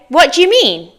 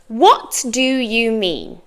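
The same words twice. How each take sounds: First: The words run together in a reduced form. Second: Each word is said separately and fully.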